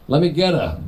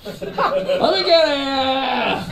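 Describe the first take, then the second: First: Said in the usual way. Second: High, hugely drawn-out New York holler; mock New Yorker order, very slow and high; New York accent. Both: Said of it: "That's very New York".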